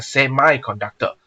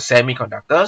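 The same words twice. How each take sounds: First: "semiconductor" with semi said SEM-eye. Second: "semiconductor" with semi said SEM-ee. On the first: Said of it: "some person pronounce a semiconductor". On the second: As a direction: say "semiconductor" with a short ee ending on semi. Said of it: "some people pronounce a semiconductor". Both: Shown as a demonstration.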